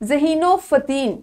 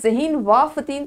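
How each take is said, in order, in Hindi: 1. 'and' एक 'o' है जो पहले शब्द से जुड़ा होता है। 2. 'and' एक अलग शब्द है जो दोनों के बीच आता है। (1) "हम बोलते हैं ना" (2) "तो नहीं बोलते"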